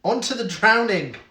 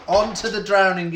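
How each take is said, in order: First: Loud game show announcement; announcing loudly. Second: Louder repeated announcement; announcing loudly. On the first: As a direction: call it out like a quiz host. Quiz host announcing next round. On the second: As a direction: call it out again, even louder. Quiz host repeats the announcement. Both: Acted.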